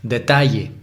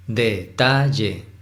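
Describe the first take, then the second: First: Said in the usual way. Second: Detalle slowly, in three separate syllables; split into syllables. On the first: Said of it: "Es por poner un ejemplo". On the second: Shown as a demonstration. Teacher counting syllables in another example, detalle syllable by syllable. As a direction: break detalle into de, ta, lle. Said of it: "Son tres sílabas".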